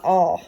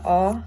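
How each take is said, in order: First: "ah" rounded to aw, as in prawn; low-mid back rounded "ah", like aw; open O vowel. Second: "ah" as in father; low back unrounded, tense "ah"; script A vowel. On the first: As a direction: round the lips on "ah" for an aw sound. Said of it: "Description low, mid, and then back, rounded". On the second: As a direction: open "ah" with unrounded lips. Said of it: "description is low back, unrounded tense". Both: Shown as a demonstration.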